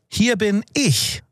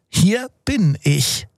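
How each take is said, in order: First: It sounds like defending one's place against someone. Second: It sounds like arriving late but just in time.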